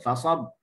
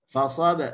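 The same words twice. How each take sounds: First: The final b is closed and cut off. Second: The final b is released with a bounce. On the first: "dia tutup rapat, dia putuskan suara" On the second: "kita lepaskan huruf qalqalah"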